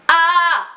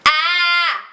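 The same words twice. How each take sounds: First: "A" with the tongue dropped, losing the metal; an open, dark "A" with no twang; "A" sung wrong, metal lost; dull open A. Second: "A" leaning toward "E", bright and metallic; twangy "A" bending to "E". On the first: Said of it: "perdi o meu metal". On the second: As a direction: keep the metal in "A", aimed at "E". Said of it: "indo pro E". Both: Shown as a demonstration.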